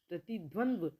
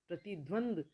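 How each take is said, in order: First: The word ends in dva, with an extra v. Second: The word ends in a bare d. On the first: The speaker calls it right. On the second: The speaker calls it wrong.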